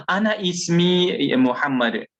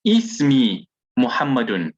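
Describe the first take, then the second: First: "Ana ismi Muhammad" with ANA stressed and higher; mock learner mistake, ANA stressed; wrong beginner form. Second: "Ismi Muhammadun" with ISMI stressed, dropping ana; the proper way, "Ismi Muhammadun", no ana; correct form. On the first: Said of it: "That's not the proper way of doing things". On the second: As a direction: model answer, ISMI clearly stressed. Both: Shown as a demonstration.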